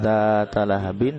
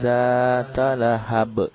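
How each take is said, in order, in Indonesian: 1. Kata terakhir berakhir dengan bunyi 'bin'. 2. Kata terakhir berakhir dengan 'b' saja. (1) "bukan zata lahabin" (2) "tapi zata lahab, jadi dimatikan"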